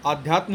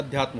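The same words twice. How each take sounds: First: आध्यात्म with long initial aa; wrong form. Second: अध्यात्म with short initial a; correct form. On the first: Teacher rejects the misspelling, आध्यात्म with long first vowel. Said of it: "नहीं होता". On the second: Teacher gives the right spelling, अध्यात्म with short first vowel. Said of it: "अध्यात्म होता है". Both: Shown as a demonstration.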